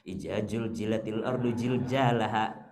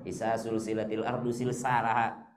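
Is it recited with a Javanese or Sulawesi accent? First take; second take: Javanese; Sulawesi. First: Javanese accent, the z sounds become j. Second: Sulawesi accent, the z sounds become s.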